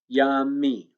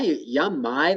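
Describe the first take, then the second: First: The final syllable ends with an 'ee' sound. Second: The final syllable ends with an 'eye' sound. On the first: The speaker calls it right. "the Y says E" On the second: The speaker calls it wrong. "That doesn't sound right"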